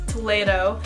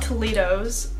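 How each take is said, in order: First: The name ends without any s sound. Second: The name ends with an added s sound. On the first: The speaker calls it right. "There's no S" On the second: The speaker calls it wrong. "it is not Toledo's"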